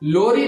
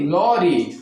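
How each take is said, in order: First: The first vowel is a closed 'oh' sound. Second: The first vowel is an open 'aw' sound. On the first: The speaker calls it wrong. "लोरी नहीं" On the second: The speaker calls it right. "नहीं लॉरी"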